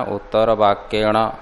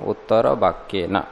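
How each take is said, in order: First: "ण" said as a retroflex ṇa, tongue curled back; उलटी जीभ से "ण"; wrong retroflex ण. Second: "न" said as a dental na, tongue on the teeth; दंत्य "न", जीभ दाँतों पर; correct dental न. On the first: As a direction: end on "ण" with the curled-back nasal. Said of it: "ण की कोई आवश्यकता नहीं". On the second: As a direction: end on "न" with the tongue on the teeth, not curled. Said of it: "केवल इतना करो". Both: Shown as a demonstration.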